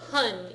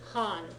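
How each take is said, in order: First: The vowel sounds like the one in 'hun'. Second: The vowel sounds like the one in 'Han'. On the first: The speaker calls it wrong. "it doesn't sound like hun either" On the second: The speaker calls it right. "It's Han. Think Han Solo"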